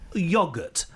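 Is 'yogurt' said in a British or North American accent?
British. It is said in a British accent.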